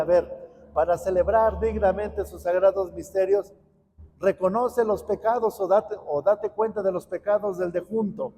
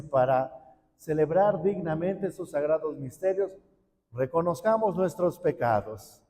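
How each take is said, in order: First: Mock reworded priest's call. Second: Priest's liturgical words. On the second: Shown as a demonstration. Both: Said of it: "si el sacerdote dijera".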